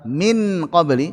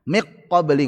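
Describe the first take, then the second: First: The n is pronounced clearly and fully. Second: The n merges completely into the q. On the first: "kalau dibaca dengan izhar min qabli berat" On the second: "enggak cocok"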